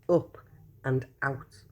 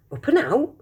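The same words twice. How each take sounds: First: Said in the usual way. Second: Higher, puzzled echo of the label; puzzled question. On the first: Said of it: "It said". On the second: Acted. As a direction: repeat the words in disbelief. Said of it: "thought Charlie".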